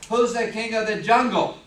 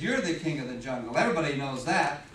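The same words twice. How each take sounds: First: Loud, boastful demand as a cocky lion. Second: Low-voiced, mildly submissive reply; submissive giraffe. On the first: Acted. Lion challenging the giraffe, boastful and loud. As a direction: puff up and ring the question out loudly. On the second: Giraffe answering the boastful lion, low and submissive. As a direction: give in, pitched well down.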